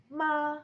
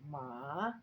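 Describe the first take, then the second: First: "ma" high, flat and held, louder; first tone. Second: "ma" dipping low, then rising; third tone. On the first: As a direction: say "ma" on a high level pitch. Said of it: "with different intonations". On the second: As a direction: drop "ma" down and swing it back up. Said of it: "goes down and then it goes up". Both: Shown as a demonstration.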